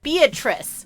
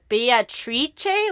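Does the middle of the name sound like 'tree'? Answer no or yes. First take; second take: no; yes. First: The name has the usual English sounds, without 'tree'. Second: The middle of the name sounds like 'tree'. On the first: "which is the English pronunciation" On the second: "like tree, like T R I, like tree"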